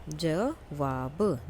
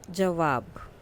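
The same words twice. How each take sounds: First: Slow dictation. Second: Said in the usual way. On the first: Shown as a demonstration.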